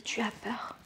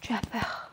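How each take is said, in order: First: Hushed, fearful whisper; scared whisper. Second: Soft. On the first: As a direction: whisper it as if afraid. (murmuré avec peur) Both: Shown as a demonstration. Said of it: "Et la peur aussi".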